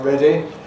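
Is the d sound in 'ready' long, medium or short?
medium. The d sound has a medium length. It sounds like British English. "my sort of British one, ... is perhaps intermediate"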